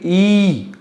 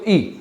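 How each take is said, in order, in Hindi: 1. इस स्वर को लगभग दोगुनी देर तक खींचा जाता है। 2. इस स्वर को थोड़ी देर तक ही खींचा जाता है।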